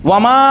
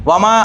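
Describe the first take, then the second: Both takes have the same delivery.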